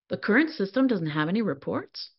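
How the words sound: The voice rises at the end, like a question.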